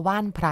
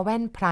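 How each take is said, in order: First: ว่านไพร read as waan, a long vowel under a falling tone. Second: แว่นไพร read as waen, a short vowel under a falling tone. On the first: Narrator offers the other reading: ว่านไพร as waan-phrai. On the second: Narrator weighs the written spelling: แว่นไพร as waen-phrai. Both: Shown as a demonstration. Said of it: "ไม่แน่ใจว่าแว่นไพรหรือว่าว่านไพร".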